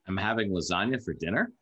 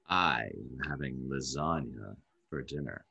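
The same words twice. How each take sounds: First: It is said as a question. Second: It is said in a seductive tone.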